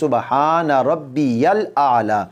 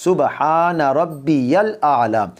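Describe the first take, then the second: First: A clear y sound separates Rabbi and al. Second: A clear y sound separates Rabbi and al.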